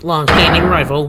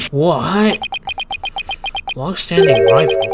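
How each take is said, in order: First: Said in the usual way. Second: "Long-standing rival?" repeated in disbelief; incredulous echo. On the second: Acted. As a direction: throw "Long-standing rival?" back, stunned. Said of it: "When were we ever rivals".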